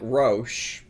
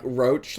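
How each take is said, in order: First: It is one syllable ending in 'sh'. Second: It rhymes with cockroach, ending in 'ch'. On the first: "I would guess that was pronounced like Roche" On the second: "pronounced like roach, like car- cockroach"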